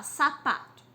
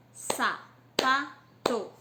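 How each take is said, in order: First: Said in the usual way. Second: "Sapato" very slow in three beats, sa, pa, to; syllable by syllable. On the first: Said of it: "Vou fazer a sapato e boné com vocês". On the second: Shown as a demonstration. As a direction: punch each syllable of "Sapato" separately. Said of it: "dividir a sílaba sapato".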